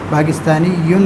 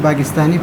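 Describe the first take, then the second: First: The word ends in a full -yyun ending. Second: The word ends in a plain -i ending. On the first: This is the full written form. "पाकिस्तानी यून है" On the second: This is how it is read aloud. "हम जब पढ़ेंगे तो पाकिस्तानी पढ़ेंगे"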